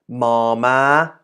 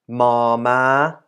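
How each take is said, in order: No difference in how they are said.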